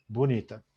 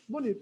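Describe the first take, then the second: First: "Bonita." lower and falling, a plain compliment; settled, approving "Bonita."; lower, sincere "bonita". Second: "Bonita." jumped very high and soft, lifting her up; admiring, airy "Bonita.". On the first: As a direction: say "Bonita." as honest praise. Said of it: "Olha o meu tom". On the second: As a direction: breathe out "Bonita." high and light, full of praise. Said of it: "joguei a moral dela lá em cima". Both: Shown as a demonstration.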